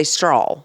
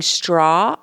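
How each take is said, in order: First: "straw" said as "strawl" in Southern style; twangy Southern "straw"; Southern pronunciation. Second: Said in the usual way. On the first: Shown as a demonstration. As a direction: add a Southern L to the end of "straw". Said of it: "I say straw". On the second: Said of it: "instead of saying straw".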